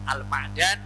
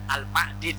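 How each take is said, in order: First: The vowel after the d is 'a'. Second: The vowel after the d is 'i'. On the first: "boleh dibaca kas, fathah" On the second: "Boleh dalnya dibaca kasroh"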